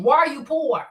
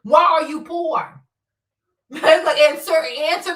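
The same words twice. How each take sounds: First: Said in the usual way. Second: Slow, louder, a fake crying tone; mock wail. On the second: Taunting viewers who complain, in a mock crying wail. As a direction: wail it like a hammed-up sob.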